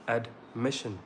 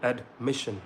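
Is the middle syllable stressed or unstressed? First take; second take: stressed; stressed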